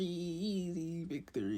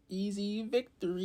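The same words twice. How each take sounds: First: Slow, soft gloat. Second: High gloat. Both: Retold or imitated. Repeated gloating line.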